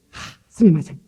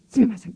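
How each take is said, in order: First: A loud sigh-led sumimasen, imitating a shopkeeper; bow it out like a Japanese clerk saying "스미마센" apologetically, louder; Japanese apology. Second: "스미마센" pitched higher, a quick, eager repeat; repeated Japanese apology. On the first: Preacher imitating a Japanese shopkeeper apologizing, loud mock sorry. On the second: Retold or imitated. Preacher repeating the shopkeeper's apology, higher eager mock sorry. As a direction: say "스미마센" again, higher and hurried, like a bowing clerk. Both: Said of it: "미안합니다".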